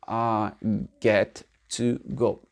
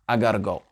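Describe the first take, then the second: First: The words 'got to' are said separately and fully. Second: The words 'got to' are run together as 'gotta'. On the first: This is the underlying full form. "en vérité, c'est I get to go" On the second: This is how it is said in real everyday speech. "dans la vie réelle, anglais authentique, c'est I gotta go"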